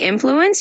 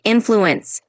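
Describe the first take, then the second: First: Said in the usual way. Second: Influence said slowly, with the "in" stressed; slow it down and push the "in" of influence; stress on first syllable. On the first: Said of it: "When you say influence". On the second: Shown as a demonstration. Tutor modelling influence for Brian, slow, first syllable stressed. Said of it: "just emphasize the first part".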